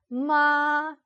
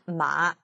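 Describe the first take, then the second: First: The pitch stays high and level. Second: The pitch dips low, then rises slightly. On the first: It means mother. "성조 제1성은 높고 평평한 소리" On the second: It means horse. "내려가다가 살짝 올리는데"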